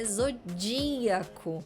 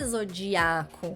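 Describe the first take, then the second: First: The stress is on the third-to-last syllable. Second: The stress is not on the third-to-last syllable. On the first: The speaker calls it right. "A antepenúltima sílaba é mais forte" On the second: The speaker calls it wrong. "a pronúncia não é zodiaco"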